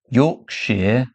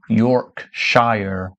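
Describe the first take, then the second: First: It is said with a British pronunciation. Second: It is said with an American pronunciation.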